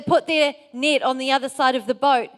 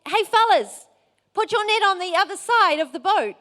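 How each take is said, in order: First: Said in the usual way. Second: Higher, louder call from the shore; retold yell. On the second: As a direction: call out to men in a boat. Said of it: "and, and he yells".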